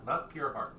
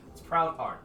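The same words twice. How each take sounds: First: "pure" set apart as the wrong word; stress on pure. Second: "proud" picked out higher as the correction; stress on proud. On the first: Halfling rejects the mistaken name, stressing "pure". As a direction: dismiss "pure" with a little emphasis. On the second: Halfling corrects the introduction, stressing "proud". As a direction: lean on "proud" to correct the name. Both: Acted. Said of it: "You hear the halfling go".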